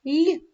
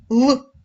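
First: Lone soft Л, palatalized, raised in pitch. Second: Lone hard Л, dark and punched out loud. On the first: Teacher comparing two sounds for pupils, soft Л first. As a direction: say Л palatalized, tongue toward an і. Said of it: "Перший звук ніби подобрішав і звучить м'яко". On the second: Teacher comparing two sounds for pupils, loud hard Л second. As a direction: say Л hard and loud, tongue not palatalized. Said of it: "Порівняйте два звуки". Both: Shown as a demonstration.

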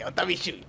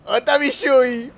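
First: Said in the usual way. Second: High, loud, drawn-out call; raised voice stretching the words; playful calling out. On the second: Acted. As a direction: sing out for your missing buddy, teasing. Repeats it, calling out to rival.

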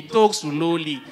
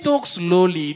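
First: Said slowly. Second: Said in the usual way. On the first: Retold or imitated. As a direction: drag out talk slowly, very slow.

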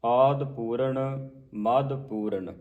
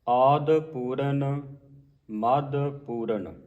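First: ਮੱਧ Puran then a clear pause; pause after verse. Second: Slow, with ਮੱਧ said softly, unstressed. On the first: Teacher repeats the line, marking the pause. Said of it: "ਭਾਵ ਪੋਲਾ ਉਚਾਰਨ ਕਰਨਾ ਹੈ". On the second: Teacher demonstrates ਮੱਧ read softly in the verse. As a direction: keep ਮੱਧ light, no doubled d. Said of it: "ਮੱਧ ਜਿਹੜਾ ਹੈ ਪੋਲਾ ਪੜ੍ਹਨਾ ਹੈ". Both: Shown as a demonstration.

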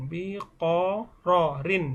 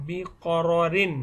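First: বিকররিন very slowly, each syllable drawn out and separate. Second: Said in the usual way. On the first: Shown as a demonstration. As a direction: break বিকররিন into long, separate syllables for a learner. Repeats hard word slowly for learners. (বিকররিন খুব ধীরে, প্রতিটি অক্ষর আলাদা করে টেনে)

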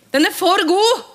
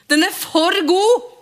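First: High, loud and thrilled again; delighted exclamation. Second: High, loud and thrilled; delighted exclamation. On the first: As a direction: cry it out in joy. Gjentar med jubel. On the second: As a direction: burst out with joy. Jubler over setningen. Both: Acted. (begeistret utrop, høyt og lyst)

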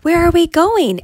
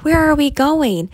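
First: Much higher, louder, panicky; the donkey asks again, more scared; more frightened repeat. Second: Higher, worried asking; a scared donkey asks the men; frightened question. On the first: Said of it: "And then said again". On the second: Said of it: "The donkey was frightened". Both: A narrator's reading.

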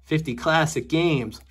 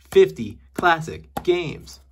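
First: Slow, savoring announcer read; drawn-out title read. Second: Slower, louder, ending on a rise; dramatic slow repeat. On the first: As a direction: stretch out "Fifty classic games" slowly. Reading game title drawn out. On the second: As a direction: announce "Fifty classic games" big and slow with a lift on "games". Repeating title more dramatically. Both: Pretend.

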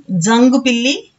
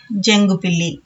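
First: జంగు పిల్లి begun with dza, rising at the end; old pronunciation. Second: జంగు పిల్లి begun with a palatal j; present-day pronunciation. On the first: Teacher giving the older sound first, జంగు as dzangu. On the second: Teacher giving today's sound second, జంగు as jengu. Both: Shown as a demonstration. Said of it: "ఇలా వీటిని పలుకుతున్నాము".

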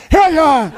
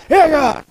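First: High strained bark of a puffed-up shopkeeper; puffed-up butcher calling the next customer; breathless grocer's shout. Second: High squeezed "¡Ella!" from an out-of-breath shopkeeper; puffed-up grocer's call. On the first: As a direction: squeeze the word out like he can't control his lungs. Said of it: "Porque estaba inflado, los pulmones no los podía manejar". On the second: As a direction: call out like a big guy with no air. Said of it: "decía". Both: Retold or imitated.

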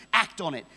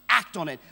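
The two takes are said the same way.

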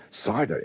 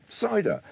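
First: Said in the usual way. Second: Cider called out much higher; bright, lifted call of Cider; high announcement. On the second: Shown as a demonstration. Announcing the next drink twice.

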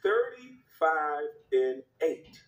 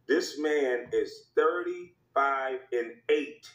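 First: Each word of Thirty-five and eight drawn out very slowly; Thirty-five and eight laid down slowly for effect; slow stress. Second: This man is thirty-five and eight said very slowly; slow, deliberate stat read; slow stress. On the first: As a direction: spell out Thirty-five and eight at half speed. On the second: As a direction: let This man is thirty-five and eight land at half speed. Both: Shown as a demonstration. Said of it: "repeated stat".

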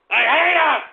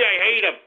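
First: High, loud outburst of hatred; angry yell. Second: Said in the usual way. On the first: Real, not acted. Host erupts about hypocrites, yelling angrily. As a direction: yell it out in a sudden burst.

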